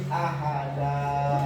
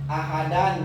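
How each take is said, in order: First: The word ends with a long a vowel. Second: The word ends with an n sound. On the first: "Berhubung diwakafkan terjadilah mad iwan" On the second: "Ahadan jadi ahada"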